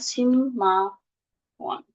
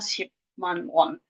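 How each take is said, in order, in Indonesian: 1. Suku kata pertama berakhir dengan bunyi m. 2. Suku kata pertama berakhir dengan bunyi p. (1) "dibacanya simma won" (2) "Jadinya shipman won"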